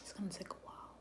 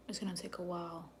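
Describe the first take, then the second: First: Whispered. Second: Said in the usual way. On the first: Shown as a demonstration. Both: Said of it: "reading to viewer".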